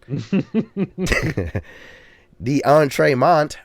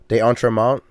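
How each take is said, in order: First: The name has a Southern US accent. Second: The name has a French-style pronunciation. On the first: "insulting uh, Southern accent version" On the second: "I think that's how it's pronounced"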